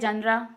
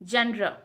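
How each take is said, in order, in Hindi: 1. शब्द के अंत में एक अतिरिक्त स्वर जुड़ा है। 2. शब्द के अंत में कोई अतिरिक्त स्वर नहीं जुड़ा है। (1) "हम इसे पढ़ते हैं जनरा" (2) "मेन प्रोनाउंसिएशन है इसका जनर"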